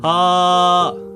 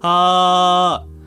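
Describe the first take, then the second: First: It sounds relaxed, with plenty of airflow. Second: It sounds relaxed, with plenty of airflow.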